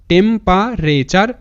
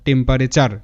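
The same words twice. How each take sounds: First: Slow, divided into spoken chunks; syllable by syllable. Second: Said in the usual way. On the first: Shown as a demonstration. Teacher joins the word's parts for students, syllable by syllable. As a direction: sound out temperature part by part, ending on a rise. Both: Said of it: "এরকম করে উচ্চারণটা করবে".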